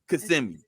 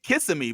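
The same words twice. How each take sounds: First: It is pronounced the way residents say it. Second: It is pronounced the way the spelling looks. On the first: This is how residents say the name. The speaker calls it right. "the people that live here are like Kissimmee" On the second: This is how outsiders read the name. The speaker calls it wrong. "you think Kissimmee because that's what it looks like"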